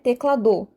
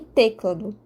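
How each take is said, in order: First: The stress is on the last syllable. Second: The stress is on the first syllable. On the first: "enfatizando a sílaba do" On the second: "não é o T que eu estaria a enfatizar"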